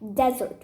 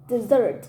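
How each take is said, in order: First: The stress is on the first syllable. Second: The stress is on the second syllable. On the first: A wild, very hot place. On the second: To leave someone.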